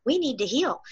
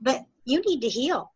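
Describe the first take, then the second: First: We lifted and stressed, rest soft. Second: Said in the usual way. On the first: Real, not acted. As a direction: correct yourself by leaning on We.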